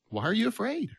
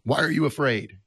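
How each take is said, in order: First: It is said in a gentle, comforting tone. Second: It is said in an irritated, grumpy tone.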